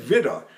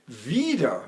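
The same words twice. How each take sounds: First: "widder" with a short i; short vowel. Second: "wieder" with a long ee; long vowel. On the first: Director mocking the wrong word, "widder" with short i. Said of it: "We don't say widder". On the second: Opera director correcting the singer, "wieder" with long ee. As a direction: draw out the first vowel of "wieder". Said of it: "we say wieder for again". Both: Shown as a demonstration.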